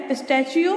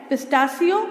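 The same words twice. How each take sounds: First: पिस्टैचियो as "pis-TASH-yo"; SH sound. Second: पिस्तासियो with a plain "si"; S sound. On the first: Teacher quizzing on spellings, पिस्टैचियो with an SH sound. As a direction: soften पिस्टैचियो to a "shee-o" ending. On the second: Teacher quizzing on spellings, पिस्तासियो with an S sound. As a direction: say पिस्तासियो ending "see-o". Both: Shown as a demonstration. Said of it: "ये क्या है?".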